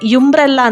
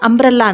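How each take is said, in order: First: The word starts with a y sound. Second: The word starts with a plain vowel sound. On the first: The speaker calls it wrong. "ಯುಂಬ್ರೆಲ್ಲಾ ಅಂತ ಯಾರು ಹೇಳಲ್ಲ" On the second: The speaker calls it right. "ಅಂಬ್ರೆಲ್ಲಾ ಅಂತ ಹೇಳ್ತೀವಿ"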